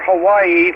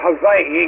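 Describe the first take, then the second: First: The middle consonant is a W sound. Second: The middle consonant is a V sound.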